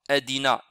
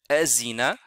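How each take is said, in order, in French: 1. La consonne du milieu est un d dur. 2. La consonne du milieu est un z bourdonnant. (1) "on ne le lit pas adina" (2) "ni azina"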